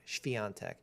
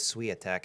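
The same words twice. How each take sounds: First: The name is said in a non-American way. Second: The name is said the usual American way. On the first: The speaker calls it right. "I gotta be pronouncing that right" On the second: The speaker calls it wrong. "everyone in the United States says Swiatek, and that's just like way off"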